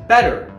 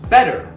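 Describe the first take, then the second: The two takes are said the same way.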